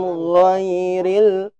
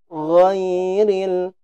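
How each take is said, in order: No difference in how they are said.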